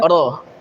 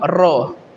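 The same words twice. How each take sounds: First: The r is a single quick tap. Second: The r is trilled with many vibrations. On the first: The speaker calls it right. "Getarannya hanya sekali" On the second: The speaker calls it wrong. "Melebih-lebihkan getaran ra"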